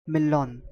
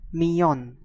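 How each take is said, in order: First: The double L is said as an L sound. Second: The double L is said as a Y sound. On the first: The speaker calls it wrong. "the double L is not millon" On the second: The speaker calls it right. "Double L is pronounced as I A"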